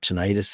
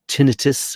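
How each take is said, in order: First: It is said the American way. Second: It is said the non-American way.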